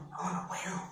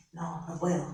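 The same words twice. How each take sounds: First: Breathless whisper of defeat; whispered despair. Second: Low, soft, worried murmur; quiet anxious thought. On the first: Scared worker whispering defeat to herself. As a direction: whisper it as if giving up. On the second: Scared worker doubting herself about the job market, hushed. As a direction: say it under your breath, losing nerve. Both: Pretend. Fearful inner voice, sinking confidence.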